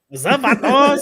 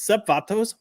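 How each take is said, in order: First: It is said with exaggerated, flavorful flair. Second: It is said plainly, without much flair.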